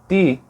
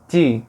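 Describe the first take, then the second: First: The t is plain, with no hissing release. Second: The t is palatalized, with the tongue raised. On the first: "em vez de fazer ti" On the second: "a língua começou a ficar nessa posição I"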